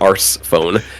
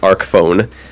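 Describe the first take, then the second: First: The first word ends with an s sound. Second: The first word ends with a k sound. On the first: The speaker calls it wrong. "you would never say Arse phone" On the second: The speaker calls it right. "It's clearly Arc phone"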